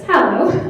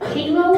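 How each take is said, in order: First: The first vowel sounds like 'hat'. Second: The first vowel sounds like 'hay'. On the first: The speaker calls it right. "then we figured out that it's Hallow" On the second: The speaker calls it wrong. "because he didn't know how to pronounce it"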